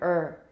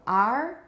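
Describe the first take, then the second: First: The word is reduced to a weak schwa. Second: The word is said with a full vowel. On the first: "weak form er" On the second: "So strong form R"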